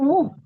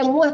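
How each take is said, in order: First: The vowel stays a rounded, forward u. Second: The vowel slides from u open toward a. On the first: The speaker calls it right. "tapi muh" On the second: The speaker calls it wrong. "jangan pakai muah"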